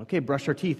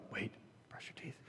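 First: Lightly voiced upbeat parent; parent's instruction. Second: Imitated child's hushed, suspicious echo; wary child's question. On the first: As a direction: imitate a parent announcing the bedtime routine, slightly raised pitch. Parent voiced announcing toothbrushing. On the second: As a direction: whisper it back like a worried little boy. Wary child echoes the parent.

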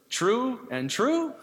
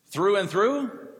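First: "true and true" drawn out in a higher German accent, the "th" of "through" said as "tr"; sermon joke turning "through and through" into "true and true", German accent. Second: Said in the usual way. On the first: Shown as a demonstration. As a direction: lightly mimic the German farmer's "true and true" for "through and through". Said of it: "True and true". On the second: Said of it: "true and true".

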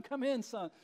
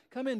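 First: Softer, coaxing father calling his son in; gentle plea. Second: Said in the usual way. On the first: Retold or imitated. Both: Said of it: "pleading with his son".

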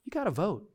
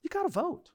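First: Said in the usual way. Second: You gotta vote pitched way up, urgent; climbing urgent plea to vote; higher insistent repeat. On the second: Shown as a demonstration. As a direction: lift "gotta" high and press it. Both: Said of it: "repeated with rising force".

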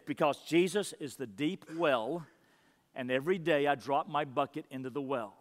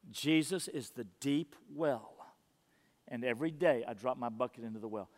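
First: Said in the usual way. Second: Soft reverent repeat. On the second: Acted. Preacher to church, dwelling on the quote in a hush. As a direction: let the line sink in, hushed.

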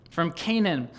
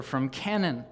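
First: "Canaan" with a long A, as in cane. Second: "Canaan" with a short A, as in can. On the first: Preacher correcting his reading, "Canaan" said with long A. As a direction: say "Canaan" as CAY-nun. Repeats name with corrected vowel. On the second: Preacher reading a journal aloud, "Canaan" said with short A. Misreads name, then corrects it. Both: Real, not acted.

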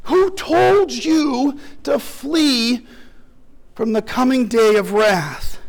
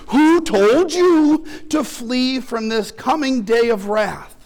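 First: "Who told you to flee" drawn out very slowly, leaning hard on "told"; slow and weighty, pressing on "told"; slow stress on told. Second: Said in the usual way. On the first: Retold or imitated. Preacher repeating the prophet's question to the crowd, slow with "told" stressed. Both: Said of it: "you can hear him asking".

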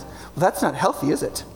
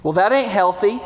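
First: Softer, sing-song polite disapproval; sweetly judge them in a nice Madison voice. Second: Lightly put-on Southern scold; a hint of folksy Southern disapproval; Southern accent. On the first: Acted. Preacher parodying Madison locals judging politely, nice soft voice. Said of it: "in a nice Madison voice". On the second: Preacher parodying old legalist judging others, light Southern accent. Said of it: "say it in a Southern accent".

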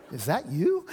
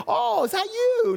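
First: Flat, unimpressed question; disdainful doubt. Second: Much higher, a thrilled gasp of welcome; light up as if meeting a dear old classmate; delighted surprise. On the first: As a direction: sound let down by how they look. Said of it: "Not the". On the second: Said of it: "you hope you get". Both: Shown as a demonstration.

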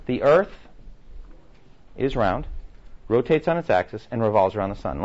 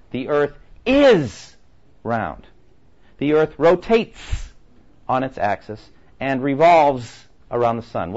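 First: Said in the usual way. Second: Slow, heavy stress on "is", "rotates" and "revolves"; stress on the present tense. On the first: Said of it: "Let me stress something". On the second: Shown as a demonstration. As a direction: lean hard on "is", "rotates", "revolves", drawn out slowly. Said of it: "the verb tenses that I'm stressing".

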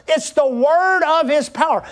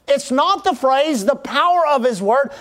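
First: "word" leaned on in "word of his power"; stress on WORD. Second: "power" leaned on in "power of his word"; stress on POWER. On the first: Preacher correcting the phrase for congregation, stress on "word". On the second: Preacher repeating the mistaken phrase, stress on "power". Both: Real, not acted. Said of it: "Let me say that again".

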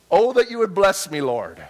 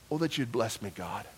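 First: Lifted, louder plea to God; declaimed prayer. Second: Soft prayer. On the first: Preacher to congregation, reciting Jabez's prayer with a loud, lifted plea. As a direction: proclaim the prayer out to the room. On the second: Preacher repeating Jabez's prayer, soft and lowered to God. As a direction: lower and softer, a private plea. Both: Acted.

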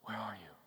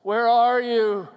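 First: Barely audible low whisper; hushed, breath-only question. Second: Loud, drawn-out cry of anguish; slow, loud, pained calling; anguished father's cry. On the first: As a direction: whisper it and let it sink in. Letting the words wash over. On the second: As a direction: cry out like a father searching for his child. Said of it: "cry of an anguished father". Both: Acted.

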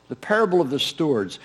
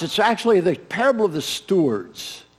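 First: The parable of the stewards said softer, parable stressed; quiet repeat, leaning on parable. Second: Actually leaned on hard; stress on actually. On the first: Preacher repeats the true name to the congregation, quietly. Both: Shown as a demonstration.

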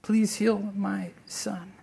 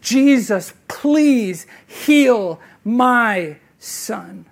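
First: Soft, slow, drawn-out plea; quiet, spent plea of a father; soft pleading. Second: Loud, slow, begging cry of a father; a desperate father's loud, drawn-out plea; desperate pleading. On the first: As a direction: beg quietly, worn out. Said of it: "this is how he comes to Jesus". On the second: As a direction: plead as if his son is dying. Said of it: "He is pleading with Christ for this". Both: Retold or imitated.

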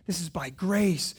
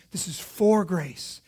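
First: "by" vurgulu söylenir; stress on by. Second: "for" slow and pressed; stress on for. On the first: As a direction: lean on the word "by". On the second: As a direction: hit "for" hard and slow. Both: Shown as a demonstration.

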